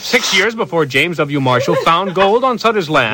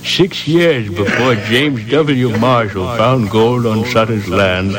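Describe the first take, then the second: First: Too rushed. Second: Slow, measured newsman read with echo; slower news read. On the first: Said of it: "No, too rushed". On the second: The director asks for a slower retake, with a slow broadcast read. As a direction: take your time, announce it. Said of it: "emphasize the word march". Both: Shown as a demonstration.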